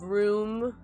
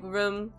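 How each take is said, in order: First: The vowel has the usual standard sound. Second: The vowel has the speaker's regional sound. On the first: "instead of room" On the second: "I say, like, room"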